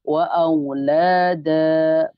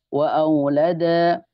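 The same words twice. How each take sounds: First: The vowel after the l is drawn out long. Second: The vowel after the l is kept short. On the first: The speaker calls it right. "Jadi lanya panjang di situ" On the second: The speaker calls it wrong.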